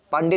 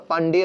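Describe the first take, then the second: First: "पांडे" in two syllables, paan-de; wrong form demonstrated. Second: "पांडेय" with added ya, paan-de-ya; correct form demonstrated. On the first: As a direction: end "पांडे" on plain e. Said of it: "पांडे नहीं होता". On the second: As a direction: end "पांडेय" on a light ya. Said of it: "पांडेय होता है". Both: Shown as a demonstration.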